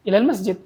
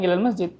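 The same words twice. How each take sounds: Both takes have the same delivery.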